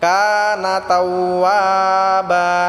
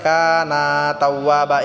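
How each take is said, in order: First: The syllable na in kana is short. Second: The syllable na in kana is drawn out. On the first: The speaker calls it right. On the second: The speaker calls it wrong.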